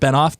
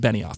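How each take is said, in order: First: The name is said with two syllables. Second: The name is said with three syllables. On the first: The speaker calls it wrong. "went with Benoff, but it's actually Benioff" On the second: The speaker calls it right. "it's actually Benioff"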